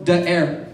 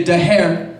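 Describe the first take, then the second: First: "The air" said for hair with no h sound; dropped h. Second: "The hair" said for air with an added h. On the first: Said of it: "When you talk about hair". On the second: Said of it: "when you talk about the air". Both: Shown as a demonstration.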